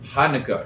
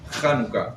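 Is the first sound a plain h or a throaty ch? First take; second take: plain h; throaty ch. First: It begins with a plain, soft h sound. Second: It begins with a rough, throaty ch sound. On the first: This is how people who cannot make the sound say it. The speaker calls it wrong. "that's how they say" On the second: This is the proper way to say it. The speaker calls it right. "They don't know how to do"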